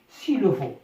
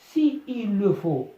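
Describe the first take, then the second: First: The first vowel is dropped and merged. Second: Both vowels are pronounced separately.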